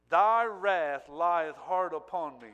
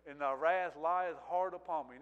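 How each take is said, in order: First: Slow, loud, drawn-out lament on "Thy wrath lieth hard upon me"; anguished cry. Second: Said in the usual way. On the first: Acted. Preacher voicing Jesus's cry of anguish, slow and loud. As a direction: cry the verse out slowly and heavily. Cried verse, later repeated plainly.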